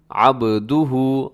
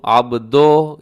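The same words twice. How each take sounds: First: अब्दुहु with rounded "du" and "hu"; measured "ab-du-hu"; correct short u. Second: अब्दो ending in "o"; wrong open vowel. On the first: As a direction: draw out अब्दुहु carefully on u vowels. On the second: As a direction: say अब्दो as a loose "ab-doh". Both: Shown as a demonstration. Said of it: "ये दुरुस्त नहीं है".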